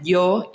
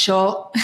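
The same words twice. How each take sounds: First: Yo said with a Mexican y sound. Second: Yo said with an Argentine sh sound, like sho. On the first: Contrasting how Mexicans say yo. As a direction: say yo the Mexican way, with a clear y. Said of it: "cómo ustedes dicen". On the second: Contrasting how Argentines say yo. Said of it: "nosotros decimos". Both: Shown as a demonstration.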